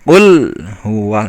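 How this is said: The l is pressed and held before huwa. The speaker calls it right. "tapi kul huwa seperti ditekan dulu"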